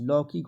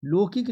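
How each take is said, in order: First: लौकिक said as "laukik"; wide au in the first syllable of लौकिक; correct pronunciation. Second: लौकिक said as "lokik"; लौकिक with plain o, pitched up as the mistake; wrong pronunciation. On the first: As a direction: open the first vowel of लौकिक. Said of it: "लौकिक होता है बच्चे". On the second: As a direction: narrow o in the first syllable of लौकिक. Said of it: "लौकिक नहीं होता है". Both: Shown as a demonstration.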